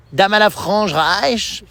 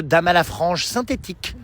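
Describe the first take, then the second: First: Drawn-out, slow mock announcement; slow mock title. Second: Said in the usual way. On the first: Daughter teasing mother, slowly announcing a mock title. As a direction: spell it out slowly like a museum caption.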